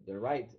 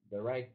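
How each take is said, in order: Both takes have the same delivery.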